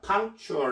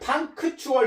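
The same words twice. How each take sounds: First: The k sound is held back and barely heard. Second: The k sound is clearly and fully released. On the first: The speaker calls it right. "큰을 아주 속으로만 하시면 됩니다. punctual 이렇게" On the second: The speaker calls it wrong. "punctual 이렇게 발음하지 말고요"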